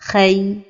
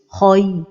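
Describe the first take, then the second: First: The consonant is made thin and light. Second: The vowel glide is made heavy and emphatic. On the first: "amincir la lettre Ra comme ceci" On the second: "emphatiser les lettres lignes comme ceci"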